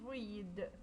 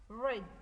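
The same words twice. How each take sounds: First: The vowel is long, not rhyming with 'bread'. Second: The vowel is short, rhyming with 'bread'. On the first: It is the present tense. "but the different pronunciation" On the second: It is the past tense. "It's pronounced bread"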